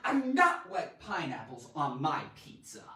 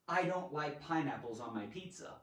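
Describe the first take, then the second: First: It is said with strong, dramatic emphasis. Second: It is said in a plain, neutral way.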